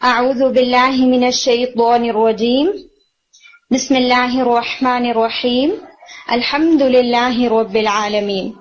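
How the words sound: A breath pause comes after each phrase. Each phrase is recited as a separate unit. "یعنی ہر ایک کے بعد سانس کو لیا جائے, رک کے آپ سانس لیں اور پھر آگے چلیں"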